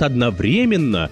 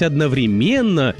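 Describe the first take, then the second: First: The stress is on the third syllable. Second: The stress is not on the third syllable. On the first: This is the variant journalists are taught to use. "все журналисты всех СМИ говорят одновременно; вариант с ударением на третий слог" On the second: This is the variant the listener used. "как же вы могли сказать одновременно"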